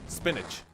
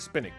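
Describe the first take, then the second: First: The word ends with an 'itch' sound. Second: The word ends with a hard k sound. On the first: "The second one, spinach, right? ... Itch, spinach, thank you" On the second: "the C H is pronounced as a, as a K"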